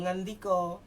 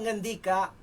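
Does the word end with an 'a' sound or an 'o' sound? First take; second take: o; a. First: The final vowel is said as 'o'. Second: The final vowel is said as 'a'. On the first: The speaker calls it wrong. "Kesleo Jawa Timuran" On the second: The speaker calls it right. "Ternyata di sini A tetap A"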